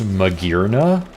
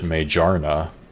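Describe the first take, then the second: First: The g is hard, as in gear. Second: The g is soft, as in mage. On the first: The speaker calls it right. "it's pronounced Magirna" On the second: The speaker calls it wrong. "always pronounced it Majarna, like Mage Arna"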